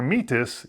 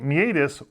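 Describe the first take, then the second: First: It is said with a British pronunciation. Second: It is said with an American pronunciation.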